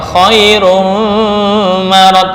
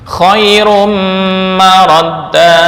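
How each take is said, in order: First: The merged nasal sound is faint and weak. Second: The merged nasal sound is full and complete. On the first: The speaker calls it wrong. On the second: The speaker calls it right. "bukan remeng-remeng ya"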